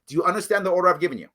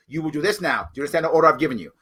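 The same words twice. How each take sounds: First: Fast, clipped order repeated; mock command; giving orders. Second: A touch of a commanding sergeant; fast mock order; giving orders. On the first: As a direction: say the order briskly. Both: Shown as a demonstration. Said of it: "I will say those words".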